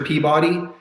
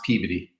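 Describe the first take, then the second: First: The second part sounds like the word 'body'. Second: The middle vowel is reduced to a weak sound. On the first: This is how it looks in writing. "it's actually spelled Peabody, as in Mister Peabody" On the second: This is how local people say it. "if you're from the New England area, it's pronounced Peabody"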